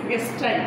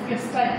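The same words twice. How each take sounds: The two takes are said the same way.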